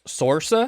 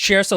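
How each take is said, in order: First: The name begins with a plain S sound. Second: The name begins with a Sh sound. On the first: The speaker calls it wrong. "you would think it would be pronounced Sorsa" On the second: The speaker calls it right. "Shersa like inertia is is the way she says it"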